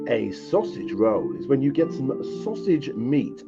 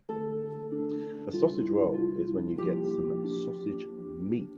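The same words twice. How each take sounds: First: It is said loudly and more seductively. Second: It is said quietly and plainly.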